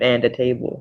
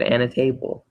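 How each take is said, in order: First: The D at the end of 'and' is pronounced. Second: The D at the end of 'and' is dropped. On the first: "instead of and a table" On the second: "I said and a table"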